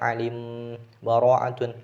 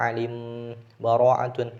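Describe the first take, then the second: First: A brief breathless pause separates the words. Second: The same.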